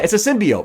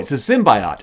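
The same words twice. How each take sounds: First: Symbiote is said in the long-familiar usual way. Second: Symbiote is said in the trailer's unusual way. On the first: The speaker calls it right. "that's what we've always called them forever" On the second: The speaker calls it wrong. "it's not pronounced that"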